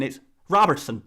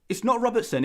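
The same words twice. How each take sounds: First: Attempted Scottish accent slipping into Irish; botched Scottish accent. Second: Said in the usual way. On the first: YouTuber failing at a Scottish correction, accent drifting to Irish. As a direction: badly fake a Scot saying "Robertson", sounding Irish. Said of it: "no, that's an Irish accent". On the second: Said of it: "in your native accent".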